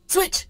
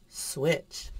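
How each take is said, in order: First: It is fast, lively and higher pitched. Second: It matches the tone and speed of nearby words. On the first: It gives an extra cue that this is the moment to act. "I said it really fast and animated and a little higher pitched" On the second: It gives no extra cue beyond the word itself. "it's kind of in the same tone and same speed as the other words"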